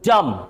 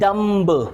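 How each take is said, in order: First: No b sound is heard at the end. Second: A b sound is heard at the end. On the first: The speaker calls it right. "It's डम" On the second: The speaker calls it wrong. "बहुत से लोग इसे pronounce करते हैं डम्ब"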